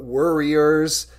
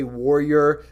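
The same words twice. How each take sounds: First: "worriers" slowly, with a WUR first syllable; "worriers", drawn out as WUR-ee-ers; emphatic pronunciation. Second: "warrior" with a WAR first syllable; "warrior", sounded like WAR-ee-er; contrasted pronunciation. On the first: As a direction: stretch "worriers" so it clearly comes from worry. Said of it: "I didn't say warrior, but worriers". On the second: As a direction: say "warrior" as in war, the word not meant. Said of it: "I didn't say warrior". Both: Shown as a demonstration.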